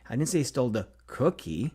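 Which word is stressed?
cookie. The stress is on the word cookie.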